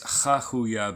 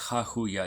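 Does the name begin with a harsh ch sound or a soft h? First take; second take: ch; h. First: The name begins with a harsh throaty ch sound. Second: The name begins with a soft breathy h sound. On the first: The spelling has an extra letter at the start. The speaker calls it wrong. "puts a C uh, at the beginning, like it's Chahuya" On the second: The spelling has no such letter. The speaker calls it right. "but it's not. It's Chahuya. ... there's no Het in there"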